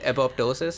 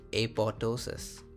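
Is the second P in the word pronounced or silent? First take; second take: pronounced; silent. First: The second P sound is pronounced. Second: The second P sound is silent.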